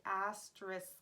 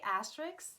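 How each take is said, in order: First: Asterisk with careful "-isk" ending; corrected pronunciation. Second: Asterisk said as "astricks"; habitual mispronunciation. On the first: Vlogger correcting herself, asterisk carefully ending in S-K. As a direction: sound out asterisk, S before the final K. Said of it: "So it should be asterisk". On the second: Vlogger showing her usual mistake, asterisk mispronounced as "astricks". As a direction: swap the end of asterisk to "-icks". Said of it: "I always say asterisk, but that's wrong". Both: Shown as a demonstration.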